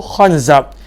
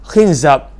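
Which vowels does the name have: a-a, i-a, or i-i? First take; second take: a-a; i-a. First: Both syllables have the vowel a. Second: The first syllable has i, the second a. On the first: "baris atas" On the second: "baris bawah"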